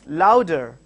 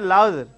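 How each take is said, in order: First: The two syllables are said separately. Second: The two syllables are run together. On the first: The speaker calls it right. "you are pronouncing loud and then er separately" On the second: The speaker calls it wrong. "It's not louder"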